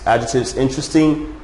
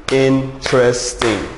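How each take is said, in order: First: Said in the usual way. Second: "interesting" drawn out slowly, syllable by syllable; slow down and lay out each syllable of "interesting"; slow syllable demo. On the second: Shown as a demonstration. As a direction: spell out "interesting" slowly for the class. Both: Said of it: "Three syllable adjectives".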